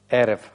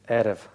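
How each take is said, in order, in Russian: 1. Слово начинается с горлового звука, рот широко открыт. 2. Слово начинается с горлового звука, рот широко открыт.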